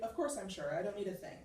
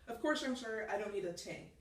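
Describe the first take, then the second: First: 'Thing' is said with a 'th' sound. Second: 'Thing' is said 'ting', the Irish way.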